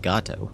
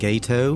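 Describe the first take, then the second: First: The first vowel sounds like in 'father'. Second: The first vowel sounds like in 'gate'. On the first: It is the Spanish word for cat. The speaker calls it right. "obviously it's supposed to be Gato" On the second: It is treated as if short for gator. The speaker calls it wrong. "pronounced Gato by the U.S. forces"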